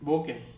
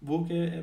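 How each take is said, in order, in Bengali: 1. এটি 'boh-kay' এভাবে উচ্চারিত হয়। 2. এটি 'boo-kay' এভাবে উচ্চারিত হয়।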